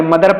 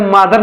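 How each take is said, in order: First: मदर with its first vowel kept short; correct mother pronunciation. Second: मादर with a long "aa" in front; mispronounced mother. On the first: Teacher corrects the reading for learners, correctly pronounced मदर. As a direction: say मदर as "muh-dar", no long "aa". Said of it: "मदर पढ़ेंगे". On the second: Teacher compares it with father's spelling, mispronounced मादर. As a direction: say मादर with a wrong "maa" first syllable. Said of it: "मादर नहीं पढ़ेंगे". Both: Shown as a demonstration.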